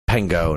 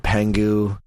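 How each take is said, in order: First: The name ends with an 'oh' sound. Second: The name ends with an 'oo' sound. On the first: The speaker calls it right. "Pengo, not Pengu" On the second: The speaker calls it wrong. "not Pengu"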